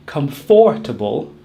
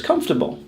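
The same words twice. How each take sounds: First: "comfortable" in four syllables, cum-FOR-tuh-bul; mispronounced comfortable. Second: "comfortable" in three syllables, CUMF-tuh-bul; correct comfortable. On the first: Teacher showing what not to say, four syllables. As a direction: say "comfortable" wrongly with a full FOR. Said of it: "We do not say comfortable". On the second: Teacher correcting the wrong version, three syllables. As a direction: say "comfortable" without the middle syllable. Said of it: "we drop the middle syllable". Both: Shown as a demonstration.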